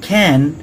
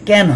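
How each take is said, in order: First: The first consonant has a puff of air. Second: The first consonant has no puff of air. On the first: The speaker calls it right. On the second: The speaker calls it wrong. "এটা ক্যান হবে না"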